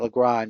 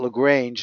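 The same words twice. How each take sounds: First: The name is said with a French pronunciation. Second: The name is said with an English pronunciation. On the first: This is the name as the other person said it. "not Lagrange" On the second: This is the name as the speaker's colleagues used it. "We used to call it Lagrange"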